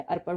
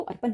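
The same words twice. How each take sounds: First: अर्पण with retroflex final ṇ; अर्पण as ar-paṛ; correct pronunciation. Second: अर्पण with a plain n at the end; अर्पण, final n on the teeth; wrong pronunciation. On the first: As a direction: end अर्पण on a flapped, curled-back ṇ. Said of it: "अर्पण होता है". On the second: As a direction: say अर्पण as ar-pan. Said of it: "अर्पण नहीं होता है". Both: Shown as a demonstration.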